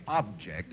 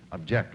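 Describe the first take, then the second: First: "Object" with the stress on OB, as a noun; stress on first syllable. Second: "object" with the stress on JECT, as a verb; stress on second syllable. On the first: Host explaining a charades word, "Object" stressed on OB. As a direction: say "Object" as OB-ject. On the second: Host explaining a charades word, "object" stressed on JECT. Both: Shown as a demonstration. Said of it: "you can object like that".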